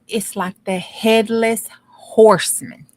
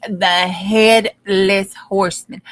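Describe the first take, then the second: First: Said in the usual way. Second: "headless" drawn out and leaned on, slow and emphatic; slow down and lean hard on "headless"; stress on headless. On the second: Shown as a demonstration. Telling listeners the body is a headless horseman, stress on "headless". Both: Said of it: "Do you hear me?".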